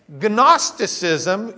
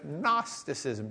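First: The initial G is pronounced. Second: The initial G is silent. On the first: The speaker calls it wrong. "you would not get anyone understanding you" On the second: The speaker calls it right. "just forget the G's even there"

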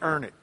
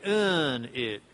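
First: The word is said in the local accent. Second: The word is said in a Boston accent. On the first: "But down here" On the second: "That's the way they say it"

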